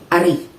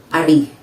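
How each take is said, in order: First: The stress is on the second syllable. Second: The stress is on the second syllable.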